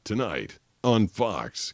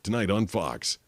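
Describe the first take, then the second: First: It is said slowly and drawn out. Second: It is said at a measured, medium pace. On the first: It runs over the allotted time. The speaker calls it wrong. "You can't be like, ... because that's like two point three" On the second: It fits the allotted time exactly. The speaker calls it right. "one point eight seconds. So you have to be like"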